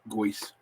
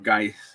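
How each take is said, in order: First: The vowel sounds like 'oy'. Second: The vowel sounds like 'eye'. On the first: The speaker calls it right. "that's the way you pronounce it" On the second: The speaker calls it wrong. "instead of Geist"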